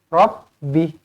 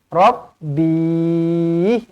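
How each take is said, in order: First: The word ends with a short, clipped stop. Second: The word ends with a drawn-out final sound. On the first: The speaker calls it right. "pastikan berhenti dengan pendek sahaja" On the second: The speaker calls it wrong. "Jangan Rabbih. Ha, jangan macam tu"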